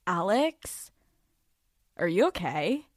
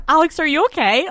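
First: Soft, quiet concerned voice; imitating therapist. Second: Higher, louder, quick put-on voice; mock boyfriend voice. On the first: Therapist gently checking on her client, soft and concerned. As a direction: ask it softly like a worried therapist. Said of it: "Literally just like that". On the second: Boyfriend checking on her through the door, quick and high. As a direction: blurt it fast and high, a nagging roommate.

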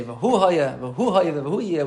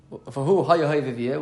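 First: "V'hu" stressed each time it returns; stress on repeated V'hu. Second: Said in the usual way. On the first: Shown as a demonstration. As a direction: hit "V'hu" afresh at the start of each phrase. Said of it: "We say it three times". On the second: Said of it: "We don't just say".

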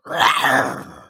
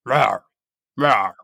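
First: Drawn-out roar like an attacking cat; snarling big-cat roar; tiger roar. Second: Short warning roar, repeated; lion roar. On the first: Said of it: "difference between a lion roar and a tiger roar". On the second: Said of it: "Can you demonstrate?". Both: Shown as a demonstration.

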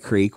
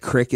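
First: Said in the usual way. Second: "crick" with a short i; country pronunciation. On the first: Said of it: "crick instead of creek". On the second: Retold or imitated. Recalling Mom from East Kentucky, short-vowelled "crick". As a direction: say crick to rhyme with brick. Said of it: "called it crick instead of creek".

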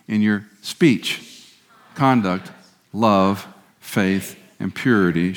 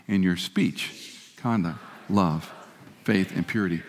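First: Every word spaced out, very slow and even; slow group recitation. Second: Much softer and very slow, drawn out; soft slow recitation. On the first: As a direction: lead the room word by word, slowly. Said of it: "One more time, say it with me". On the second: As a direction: let it fall to a hushed, slow close. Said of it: "One last time". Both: Shown as a demonstration.

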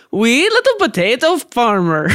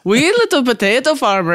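First: Sing-song Irish-Swedish accent on "Wee little potato farmer"; a friend's mixed Irish-Swedish accent. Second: Sing-song Irish-Swedish lilt again, "little" stressed; Irish Swedish accent. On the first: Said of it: "let's see if I can still do it". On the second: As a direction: mimic a Swede-Irish parent saying it. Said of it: "that's how you would say that sentence". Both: Shown as a demonstration.

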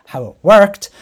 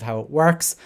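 First: "worked" punched much louder and higher; stress on WORKED. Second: Said in the usual way. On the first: Real, not acted. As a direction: correct yourself, hitting "worked" hard. Corrects works to past tense.

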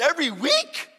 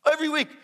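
First: "Every week?" high, loud, rising; incredulous question. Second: "Every week." high, loud, falling at the end; emphatic confirmation. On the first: Newcomer double-checks with friend, incredulous. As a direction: ask in loud, high disbelief. Retold disbelief at friend's answer. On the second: Friend confirms to newcomer, emphatic. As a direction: confirm it loudly with a final drop. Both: Retold or imitated.

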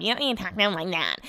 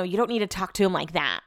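First: Quick mocking parody of a scolding; singsong mock nagging; mocking imitation. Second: Said in the usual way. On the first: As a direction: mimic a nagging partner, rattled off fast. [name] has made fun of me.

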